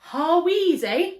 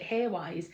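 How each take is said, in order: First: The name is said in three syllables. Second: The name is said in two syllables. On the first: The speaker calls it right. "It is Harweezy" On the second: The speaker calls it wrong. "I always pronounced it Haywise"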